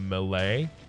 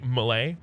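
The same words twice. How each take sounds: First: The first syllable is said fully and clearly. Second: The first syllable is reduced and buried. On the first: "rather than melee" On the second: "I bury the first syllable and say melee"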